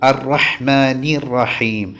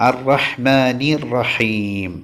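Both takes have the same delivery.

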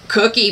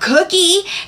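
First: It sounds regretful and too full. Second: It sounds eager and excited.

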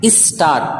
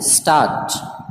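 First: A short vowel is added before the s. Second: The word starts directly with the s sound. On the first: The speaker calls it wrong. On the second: The speaker calls it right.

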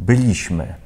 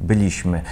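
No difference in how they are said.

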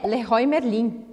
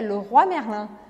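First: It is pronounced with Brazilian Portuguese sounds. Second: It is pronounced with French sounds. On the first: The speaker calls it wrong. "tenho certeza que você sempre falou errado. Não é Leroy Merlin" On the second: The speaker calls it right. "o nome correto é Leroy Merlin"

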